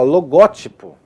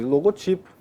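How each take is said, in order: First: The stress is on the second syllable. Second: The stress is on the third syllable. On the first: "logótipo é muito ruim de falar" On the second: "O logotipo é o mais comum"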